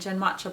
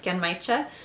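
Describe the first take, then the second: First: The middle syllable sounds like 'match'. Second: The middle syllable sounds like 'my'. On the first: The speaker calls it wrong. "I was saying it Genmatcha before, which was wrong" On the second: The speaker calls it right. "but I think it's Genmaicha"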